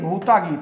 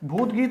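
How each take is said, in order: First: The first word ends with an added 'a' vowel. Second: The first word ends on a consonant, without a vowel. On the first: The speaker calls it right. "भूता गीत है" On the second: The speaker calls it wrong. "भूत गीत नहीं"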